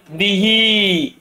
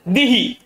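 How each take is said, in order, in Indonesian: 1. Vokal akhir i dibaca panjang. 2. Vokal akhir i dibaca pendek. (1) "Dibaca penuh kasronya" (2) "Tidak dibaca penuh"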